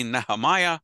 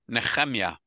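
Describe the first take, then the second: First: Nehemiah as NEE-huh-MY-uh, English style; English pronunciation. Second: Nehemiah as neh-KHEM-yah, with throaty kh; Hebrew pronunciation. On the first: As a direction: say Nehemiah with a long MY before the final uh. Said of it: "in English would be Nehemiah". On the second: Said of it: "In Hebrew would be Nehemiah". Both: Shown as a demonstration.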